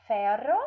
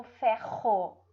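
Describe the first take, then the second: First: "ferro" with a tapped R, like "fero"; weak R. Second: "ferro" with a throaty H-like R; slow "fe-RRO", R rasped at the back; strong guttural R in "ferro". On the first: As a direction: mispronounce "ferro" with a light tongue-tip R. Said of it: "ou vai ter um som fraco ou vai ter um som forte". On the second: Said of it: "se tem o som forte". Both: Shown as a demonstration.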